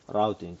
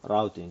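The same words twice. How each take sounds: First: It is said with an American pronunciation. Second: It is said with an American pronunciation.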